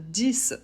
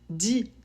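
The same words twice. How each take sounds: First: The word ends with a clear s sound. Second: The word ends on the vowel, no final consonant. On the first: The number stands alone, as when counting. "si le chiffre est isolé" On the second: A word starting with a consonant follows. "s'il est suivi d'un mot qui commence par une consonne"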